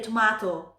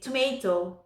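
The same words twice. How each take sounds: First: Tomato is said with a British accent. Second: Tomato is said with an American accent. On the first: "and in here tomato" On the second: "with American English, you say tomato"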